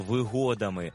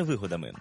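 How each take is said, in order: First: Вигодами with ГО stressed; stress on second syllable. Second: Вигодами with ВИ stressed, the rejected form; stress on first syllable. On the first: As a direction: put the beat on ГО in вигодами. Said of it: "із наголосом на другому складі". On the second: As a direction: put the beat on ВИ in вигодами. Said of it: "а не". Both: Shown as a demonstration.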